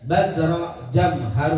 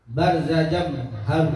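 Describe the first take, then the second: First: "bazro" dibaca baz-ro, z sebelum r; bacaan koreksi bazro. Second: "Barza" dibaca bar-za, r sebelum z; salah baca barza. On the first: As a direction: read "bazro" slowly with z before the r. ("bazro" dieja pelan, bunyi r di suku kedua) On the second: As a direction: read "Barza" slowly with r before the z. ("Barza" dieja pelan, bunyi r di suku pertama) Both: Real, not acted.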